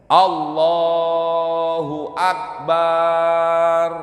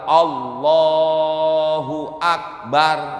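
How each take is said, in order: First: The vowel after the b is drawn out long. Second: The vowel after the b is kept short. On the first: The speaker calls it wrong. "memanjangkan harkat pada huruf ba. Ya. Allahu Akbar. Nggak boleh itu" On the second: The speaker calls it right. "Yang benar adalah Allahu Akbar, itu yang benar"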